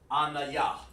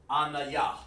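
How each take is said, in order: First: The name is said with three syllables. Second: The same.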